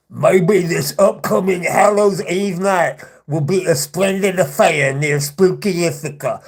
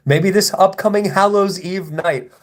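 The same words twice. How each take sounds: First: Slow, hammed-up villain voice; mock a troll's spooky supervillain act. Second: Said in the usual way. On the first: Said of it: "like, supervillain voice". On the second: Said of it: "Little Miss Supervillain pretending to be".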